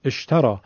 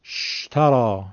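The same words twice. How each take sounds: First: «اشترا» begun with a glottal «ا» before the shin; slow, clear teaching demo; correct start. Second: «شترا» begun straight on the shin, no hamza; wrong start. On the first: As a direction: say «اشترا» with the helping hamza sounded. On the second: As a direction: drop the opening hamza and start on «ش». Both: Shown as a demonstration. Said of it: "با خود شین نمیشه شروع کرد".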